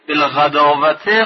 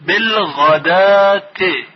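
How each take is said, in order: First: بالغداوته with the و sounded; بالغداوته said wrongly with an audible و; wrong reading. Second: بالغداتی with the و silent, ending "dati"; بالغداتی read the right way, no و sound; correct reading. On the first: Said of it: "بالغداوته خونده نشه". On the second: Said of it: "واو ناخواناست". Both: Shown as a demonstration.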